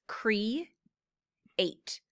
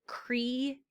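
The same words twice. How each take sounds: First: Cre-ate, with a clear break between "cre" and "ate"; split into syllables. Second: Said in the usual way. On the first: Shown as a demonstration. Teacher splitting "cre-ate" for the class. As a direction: pause after "cre-" before "ate". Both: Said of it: "the syllable breaks".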